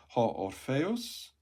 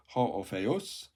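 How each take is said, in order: First: Ho Orpheus read slowly as a rising question; slow, rising Ho Orpheus that gets caught as a slip; mistaken reading. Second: Ho Orpheus read again slowly as the fixed version; careful corrected Ho Orpheus, slow and deliberate. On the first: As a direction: trip over Ho Orpheus and let it rise like a question. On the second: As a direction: redo Ho Orpheus carefully after the slip. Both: Shown as a demonstration. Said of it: "No, I keep doing that".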